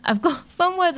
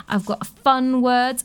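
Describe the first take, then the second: First: High laughing repeat of fun words. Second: Said in the usual way. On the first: Real, not acted. Host repeating fun words to listeners, laughing. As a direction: giggle through it, pitch jumping up.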